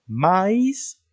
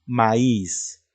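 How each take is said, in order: First: Maíz said as MÁ-is, weight on the a; maíz drawn out, first vowel stressed; wrong stress. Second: Maíz said as ma-ÍS, weight on the i; maíz drawn out, second vowel stressed; correct stress. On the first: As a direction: slowly stretch maíz with the stress on A. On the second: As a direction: slowly lean on the I of maíz. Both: Shown as a demonstration. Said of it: "¿Ves la diferencia?".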